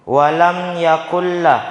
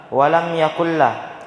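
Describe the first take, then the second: Both takes have the same delivery.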